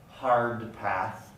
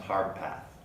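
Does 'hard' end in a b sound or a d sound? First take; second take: d sound; b sound. First: Hard ends in a d sound. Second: Hard ends in a b sound. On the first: "the voiced alveolar stops" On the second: "undergoing the same place of articulation"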